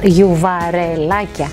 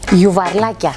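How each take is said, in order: First: The word has an e between r and l. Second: The word has no vowel between r and l.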